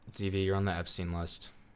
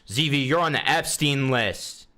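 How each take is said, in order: First: It is said flatly, without much passion. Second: It is said with lots of passion.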